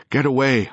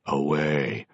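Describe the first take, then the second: First: High, loud shout. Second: Lifeless, level echo; repeated dully. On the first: A ghost shouting at his own corpse, loud. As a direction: yell to push it off. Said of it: "I shouted". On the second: The corpse dully echoing the ghost, flat. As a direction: echo it back without feeling. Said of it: "it repeated dully". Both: A narrator's reading.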